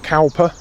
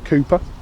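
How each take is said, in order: First: The first vowel sounds like 'cow'. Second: The first vowel sounds like 'coo'. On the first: The speaker calls it wrong. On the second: The speaker calls it right.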